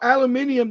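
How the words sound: It is said the British way, five syllables.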